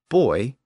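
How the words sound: It is said as one syllable, like 'boy'. "the British buoy"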